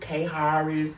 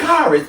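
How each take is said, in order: First: The name has an extra 'ha' sound inside. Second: The name is said smoothly without a 'ha' sound. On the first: The reader is guessing at an unfamiliar name. The speaker calls it wrong. "how do I pronounce this? Is this K Harris" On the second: The owner of the name is correcting the reader. The speaker calls it right. "it's Karis"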